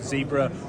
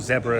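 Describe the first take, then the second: First: The name is said the non-British way. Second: The name is said the British way.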